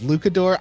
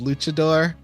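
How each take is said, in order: First: The middle consonant is pronounced as 'k'. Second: The middle consonant is pronounced as 'ch'. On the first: The speaker calls it wrong. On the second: The speaker calls it right.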